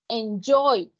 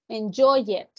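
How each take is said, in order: First: The ending is a single d sound. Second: The ending is said as an extra syllable. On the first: The speaker calls it right. "normalmente ellos terminan en D" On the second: The speaker calls it wrong. "no va a pronunciar a visited"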